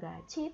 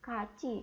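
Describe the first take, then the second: First: The word begins with a g sound. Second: The word begins with a k sound. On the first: The speaker calls it wrong. "tapi bukan gaci" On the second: The speaker calls it right. "tapi kaci kayak gitu"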